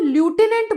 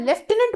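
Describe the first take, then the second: First: It is said 'loo-tenant' with no f sound. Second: It is said 'lef-tenant' with an f sound. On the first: The speaker calls it wrong. "जो कि correct pronunciation नहीं है" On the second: The speaker calls it right. "फ की sound आती है"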